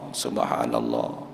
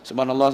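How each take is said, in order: First: It is said slowly and savoured. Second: It is said quickly and hurriedly.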